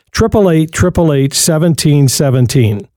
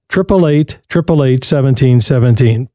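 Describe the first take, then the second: No difference in how they are said.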